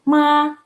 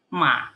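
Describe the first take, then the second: First: It is said with the first tone. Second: It is said with the third tone. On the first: It means mother. "nada ke satu" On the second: It means horse. "nada ketiga"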